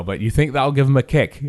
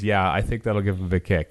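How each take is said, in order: First: Higher, louder bad accent on "But you think that'll give him a kick?". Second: Said in the usual way. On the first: Host quoting the actor asking about the entrance, bad accent. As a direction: ham up a borrowed accent for the actor's question. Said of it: "I'm doing a bad accent". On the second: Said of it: "I says".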